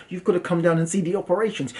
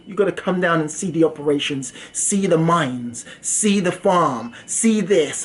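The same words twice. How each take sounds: First: Said in the usual way. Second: Slow insistent pitch. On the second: Retold or imitated. Scammer insisting on the visit.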